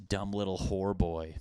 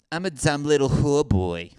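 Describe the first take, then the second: First: Said in the usual way. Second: Higher, louder put-on hooker voice. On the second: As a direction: repeat it as a hammed-up hooker. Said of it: "any hookers that sound like that?".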